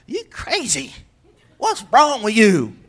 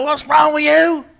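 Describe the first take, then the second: First: Slow, harsh accusation; mock accusing. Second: Higher, louder, slow accusing yell; accusing shout. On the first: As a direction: blame the relative. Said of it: "aunt or uncle and go". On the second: Retold or imitated. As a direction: bark the blame at them. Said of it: "Don't look at them and go".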